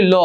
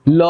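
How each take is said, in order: First: Said in the usual way. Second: ল with its hidden অ held long; drawn-out vowel. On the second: Shown as a demonstration. Teacher showing students the hidden vowel, ল drawn out. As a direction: stretch ল out slowly so the final vowel rings. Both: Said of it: "এটা একটু টেনে বলি".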